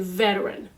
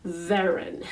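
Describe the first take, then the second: No difference in how they are said.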